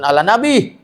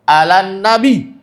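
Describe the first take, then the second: First: No n sound links the two words. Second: An n sound links the two words. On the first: The speaker calls it wrong. "bukan ala nabi" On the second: The speaker calls it right. "Alan nabi, bukan ala nabi"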